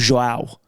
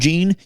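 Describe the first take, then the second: First: The name ends with an 'ow' glide sound. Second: The name ends with a nasal 'ahn' sound. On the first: The speaker calls it wrong. "You can't call him Joao" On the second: The speaker calls it right. "You can call him Jean"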